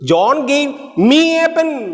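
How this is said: The stress is on me.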